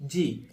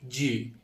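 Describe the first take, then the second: First: জি said thin, as a "j" sound; British-style letter G. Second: জি said thick in the mouth; England-style letter G. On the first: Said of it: "ব্রিটিশটা উচ্চারণ করতে বলতে হবে". (British উচ্চারণে জি) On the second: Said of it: "মোটা করে যদি বলি তাহলে ওটা হবে ইংল্যান্ড". (মোটা করে বলা ইংল্যান্ডের জি) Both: Shown as a demonstration.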